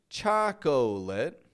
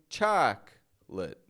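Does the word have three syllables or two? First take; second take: three; two. First: The word is said with three syllables. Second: The word is said with two syllables. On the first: The speaker calls it wrong. "I'm not adding that extra O" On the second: The speaker calls it right. "I'm just saying chocolate"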